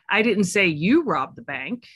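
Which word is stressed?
you. The stress is on the word you.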